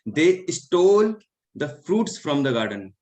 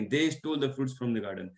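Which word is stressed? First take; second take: stole; they. First: The word stole carries the main stress. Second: The word they carries the main stress. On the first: They stole it rather than just taking it. "यहाँ पे stall है" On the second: They stole it, not us. "हो सकता है कि हमने नहीं, उन्होंने"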